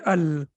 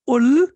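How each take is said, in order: First: The word starts with an a vowel. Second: The word starts with an u vowel. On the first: The speaker calls it right. "We have to say al" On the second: The speaker calls it wrong. "We cannot say ul"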